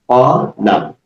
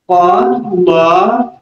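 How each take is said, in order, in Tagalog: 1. Maikli ang huling patinig. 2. Mahaba ang huling patinig. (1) "ang ibig sabihin ng po-la ay sinabi ng isang lalaki" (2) "nagkaroon ng mad yung lang"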